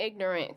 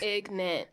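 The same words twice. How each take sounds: First: "ignorant" as IG-nuh-runt; full three-syllable "ignorant". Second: "Ignorant" squashed to IG-nunt; two-syllable slang "Ignorant". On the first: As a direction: sound the middle R in "ignorant". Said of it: "We ain't saying ignorant". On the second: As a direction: drop the middle R of "Ignorant", say ig-nant. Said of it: "I say ignorant". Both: Shown as a demonstration.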